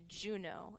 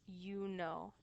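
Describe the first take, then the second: First: The name starts with a j sound. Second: The name starts with a y sound. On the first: This is the English way. "with that j sound" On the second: This is the Latin way. "when we're speaking in Latin"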